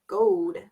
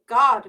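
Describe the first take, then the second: First: The vowel is long, like English 'goad'. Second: The vowel is short, like English 'god'. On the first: The speaker calls it right. "Pretend like there's an E at the end" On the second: The speaker calls it wrong. "you wouldn't say god mat. That's weird"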